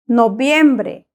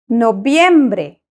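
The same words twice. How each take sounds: Both takes have the same delivery.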